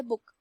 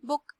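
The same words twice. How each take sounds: First: बुक said with a short u as in put; teacher models the correct बुक; right pronunciation. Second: बुक said the way nobody says it; teacher shows the wrong बुक; wrong pronunciation. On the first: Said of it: "हम बोलते बुक". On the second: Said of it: "बुक तो हम नहीं बोलते". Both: Shown as a demonstration.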